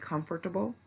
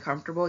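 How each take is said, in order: First: Every syllable of the word is pronounced. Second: Some syllables of the word are dropped. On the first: The speaker calls it right. "that is if you're saying all the syllables in a word" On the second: The speaker calls it wrong. "instead of saying comfortable"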